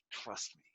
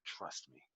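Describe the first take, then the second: First: A hushed, unvoiced hiss through clenched teeth; through gritted teeth. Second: Barely audible, low and much softer through clenched teeth; through gritted teeth again. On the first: The veteran reassures the kid at the curtain, softer, through gritted teeth. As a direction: mutter it without moving your lips. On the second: Retold or imitated. The veteran whispers to the kid before going out, softer, through gritted teeth. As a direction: push it out through a locked jaw, lips still. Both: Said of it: "he said it through his teeth just like that".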